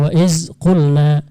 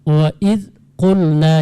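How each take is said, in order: First: The consonant is a 'z' sound. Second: The consonant is a soft 'dh' sound. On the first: The speaker calls it wrong. "jangan dibaca wa iz qulna" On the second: The speaker calls it right. "seperti wa id qulna"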